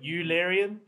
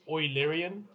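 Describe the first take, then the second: First: The first syllable does not sound like 'oy'. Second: The first syllable sounds like 'oy'. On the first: The speaker calls it wrong. "not Eulerian" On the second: The speaker calls it right. "It's apparently Oilerian, like oi"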